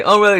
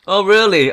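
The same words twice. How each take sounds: First: High, loud, clipped mock disbelief; more sarcastic. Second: High, loud mock disbelief; sarcastic. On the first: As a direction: throw it back at them. Sarcasm repeated. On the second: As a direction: scoff at the rivals. Sarcasm at fawning AI rivals.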